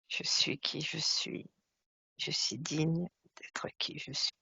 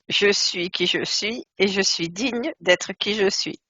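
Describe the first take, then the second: First: It is said in a lower voice. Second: It is said in a higher voice.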